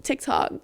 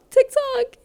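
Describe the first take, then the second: First: Said in the usual way. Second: Silly squeal. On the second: Real, not acted. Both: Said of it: "I'm actually losing it".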